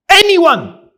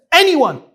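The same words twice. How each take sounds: First: High, loud call to the room; preacher calling on his listeners. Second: Repeated loud call, a bit higher; preacher pressing the crowd for a reply. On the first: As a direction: call out for an answer. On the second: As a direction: call out again for a volunteer. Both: Real, not acted. Calling out to the audience.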